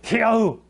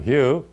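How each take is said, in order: First: It is said with angry emotion. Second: It is said firmly, without anger.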